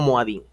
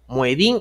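First: The second vowel sounds like a. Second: The second vowel sounds like e.

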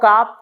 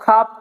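First: The k is plain, with no puff of air. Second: The k is aspirated, with a puff of air. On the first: The speaker calls it wrong. "আমরা এই স্টাইলে পড়লে কিন্তু আমাদের মুখে জড়তা দূর হবে না" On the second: The speaker calls it right. "এটাকে আমাদের পরিবর্তন করতে হবে"

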